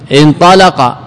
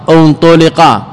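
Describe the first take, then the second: First: انطلق opening on an "i" sound, "intalaqa"; base active form. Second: انطلق opening on an "u" sound, "untuliqa"; passive with damma. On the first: Teacher gives the original verb before changing it, انطلق as "intalaqa". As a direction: say انطلق as "in-TA-la-qa", with a-vowels. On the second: Teacher shows the altered passive form, انطلق as "untuliqa". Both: Shown as a demonstration. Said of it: "مغير الصيغة".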